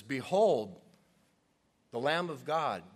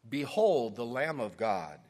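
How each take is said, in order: First: Louder ringing proclamation; proclaiming. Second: Ringing proclamation, louder; proclaiming. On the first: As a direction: point and announce him. Preacher re-enacts John pointing. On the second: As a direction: announce it to the crowd. John proclaims Jesus while reading. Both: Acted.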